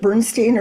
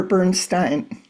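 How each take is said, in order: First: Bernstein ending in "-steen"; "-steen" pronunciation. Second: Bernstein ending in "-stine"; "-stine" pronunciation. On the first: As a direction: say Bernstein to rhyme its end with "seen". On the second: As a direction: say Bernstein to rhyme its end with "fine". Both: Shown as a demonstration. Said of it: "Is it Bernstein or Bernstein?".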